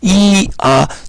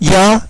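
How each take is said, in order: First: Two vowels are said one after another, apart. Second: The two vowels glide quickly into one syllable. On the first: "빨리 좀 순차적으로 빨리 발음하면" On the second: "좀 더 빨리 해보면"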